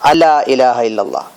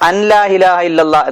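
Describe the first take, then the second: First: The n merges into a doubled l sound. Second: The n is pronounced separately before the l. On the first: The speaker calls it right. "അവിടെ നൂനുണ്ട് പക്ഷേ അതിനെ ഉച്ചരിക്കൂല, ലാമിൽ ലയിപ്പിച്ച് പറയണം" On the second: The speaker calls it wrong. "എന്നല്ല"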